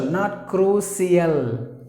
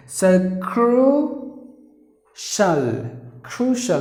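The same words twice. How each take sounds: First: "crucial" said wrongly as kroo-see-al; wrong pronunciation. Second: "crucial" said high and slow as KROO-shul; correct pronunciation. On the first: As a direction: show the mistaken "crucial" with an s sound. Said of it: "like some other say it as". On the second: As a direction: say "crucial" slowly with a clear sh sound. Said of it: "Listen to this word". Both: Shown as a demonstration.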